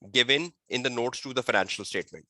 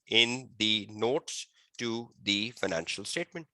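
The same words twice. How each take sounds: First: Said in the usual way. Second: Slow, softer repeat, phrase by phrase; slow dictation. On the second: Real, not acted. Teacher repeating a definition for students, slow and measured. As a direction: repeat it slowly for note-taking.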